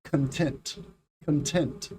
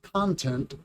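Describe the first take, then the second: First: ConTENT, second syllable stressed; "content" as cun-TENT, repeated for learners. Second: CONtent, first syllable stressed; "content" as CON-tent, with a full first vowel. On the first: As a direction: say "content" with a short, reduced con and strong TENT. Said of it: "the stress is on the second syllable". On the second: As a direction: hit CON in "content", falling at the end. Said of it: "But the first word". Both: Shown as a demonstration.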